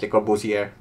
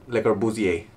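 First: The final R sound is clearly pronounced. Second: The final R sound is left silent. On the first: "I like to pronounce it Le Corbusier, because why did they put the letter R in the last of his name" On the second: "Or Le Corbusier. Whatever floats your goat"

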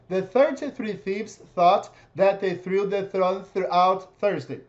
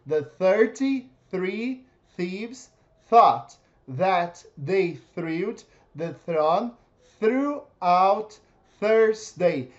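First: The sentence is read quickly. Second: The sentence is read very slowly. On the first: "Mais rápido" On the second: "primeiro, eu vou ler bem devagar"

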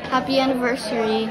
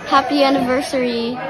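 First: It is said at normal, softer volume. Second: It is said a little louder.

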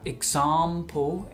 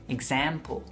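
First: It is said with a British accent. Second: It is said with an American accent. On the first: "en Inglaterra" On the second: "en Estados Unidos"

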